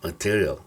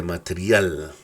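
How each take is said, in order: First: "material" the English way, ma-TEER-ee-ul; English schwa ending. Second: "material" read the Spanish way, ma-te-ri-AL; wrong Spanish-style reading. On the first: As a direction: stress the middle of "material", reduce the ending to schwa. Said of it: "lo que es el shua". ("material" en inglés, con la "ia" final reducida a schwa) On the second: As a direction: stress the last syllable of "material" with a full A. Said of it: "No se dice material". ("material" a la española, con la "a" final plena y acentuada) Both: Shown as a demonstration.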